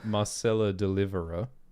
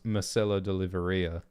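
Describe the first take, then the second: First: The surname ends with a plain 'er' sound. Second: The surname ends with an 'ee-a' sound. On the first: The speaker calls it right. "the name Marcella Deliverer" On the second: The speaker calls it wrong. "serially mispronouncing ... as Marcella Deliveria"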